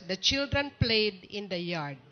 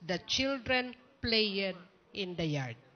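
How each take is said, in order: First: The words are pronounced in the normal English way. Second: The words are pronounced exactly as they are spelled. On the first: This is what the text says. The speaker calls it right. "The text is" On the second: This is a reading mistake by a child. The speaker calls it wrong. "Kung ano yung baybay, siya yung bigkas niya"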